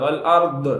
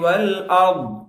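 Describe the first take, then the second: First: The final consonant is released with a bouncing echo. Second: The final consonant is held without a bouncing echo. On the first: The speaker calls it wrong. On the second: The speaker calls it right.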